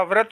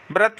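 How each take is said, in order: First: व्रत as "vrat"; correct v sound. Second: व्रत as "brat"; wrong b sound. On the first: Teacher giving students the right form, clear v. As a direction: start व्रत with vr. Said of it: "होता है". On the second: Teacher showing students the mistake, b substituted. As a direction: start व्रत with br. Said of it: "नहीं होता". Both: Shown as a demonstration.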